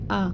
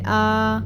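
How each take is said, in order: First: The vowel is short and gentle. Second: The vowel is stretched out long. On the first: The speaker calls it right. "इसको नरमी से पढ़ना है जैसे आ" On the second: The speaker calls it wrong. "खींचेंगे नहीं जैसे आ"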